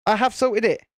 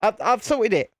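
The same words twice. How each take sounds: First: "have" pulled apart from "I've" and leaned on; insist, hitting "have"; stress on have. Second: Said in the usual way. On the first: Shown as a demonstration. Streamer defending himself to Lisa, stressing "have".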